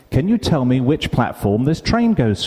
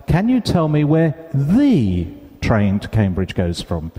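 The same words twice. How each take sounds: First: Said in the usual way. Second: "the" in "the train" stressed. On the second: Retold or imitated. Asking the railway staff, stressing "the" in "the train". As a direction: lean on "the" before "train". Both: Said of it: "I must have emphasized a word".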